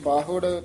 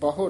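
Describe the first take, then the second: First: The first vowel is a long 'aa'. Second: The first vowel is a short 'a'. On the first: "ਪਿੱਛੇ ਕੰਨੇ ਨਾਲ ਸੀ" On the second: "ਇੱਥੇ ਬਹੁੜ ਹੈ ਸਿੱਧਾ ਹੀ"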